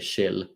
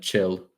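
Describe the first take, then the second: First: It is said in a Swedish accent. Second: It is said in an English accent. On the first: "if I would speak in a Swedish accent, I would say chill" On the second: "the ch ch sound like in chill"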